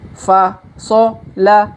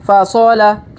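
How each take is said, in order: First: The syllables are read slowly and separately. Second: The syllables are read quickly in succession. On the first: "Kita baca pelan-pelan" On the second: "Kalau dipercepat"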